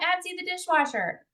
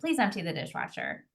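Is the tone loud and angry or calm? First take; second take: loud and angry; calm. First: It is said loudly and angrily. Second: It is said calmly and respectfully.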